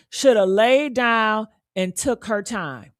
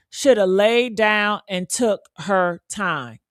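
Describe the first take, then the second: First: Said in the usual way. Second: Slow, deliberate. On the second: Shown as a demonstration.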